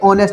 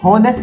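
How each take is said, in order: First: The word begins directly with a vowel. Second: The word begins with an h sound. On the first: The speaker calls it right. "ये ऑनेस्ट है। एच हमारा जो है वो है silent" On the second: The speaker calls it wrong. "ये हॉनेस्ट नहीं है गाइस"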